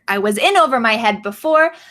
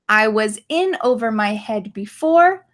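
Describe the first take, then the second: First: It is spoken at a faster pace. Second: It is spoken at a slower pace.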